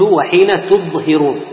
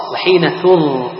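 First: "تظهرون" said with a heavy ضاد instead of ظاء; teacher shows the wrong reading of "تظهرون": ضاد. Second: Teacher gives the correct "تظ-": tongue between teeth; with ظاء. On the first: "تظهرون" بالضاد خطأ. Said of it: "قرأته بالضاد". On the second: "تظ-" بالظاء صحيح. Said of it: "والصواب". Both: Shown as a demonstration.

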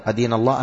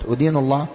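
First: أدين pronounced "adīnu", with initial "a"; correct fatha form. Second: أدين pronounced "udīnu", with initial "u"; wrong damma form. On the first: Teacher giving an example sentence, أدين as "adīnu". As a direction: start أدين on an a-vowel. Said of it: "هذا هو الصواب بالفتح". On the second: Teacher explaining the faulty meaning, أدين as "udīnu". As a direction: start أدين on a u-vowel. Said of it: "لكن". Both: Shown as a demonstration.

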